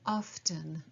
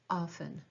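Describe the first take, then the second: First: The T sound is clearly pronounced. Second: The T sound is left silent. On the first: "can also be pronounced often" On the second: "the more traditional way to say it would be to have a silent T"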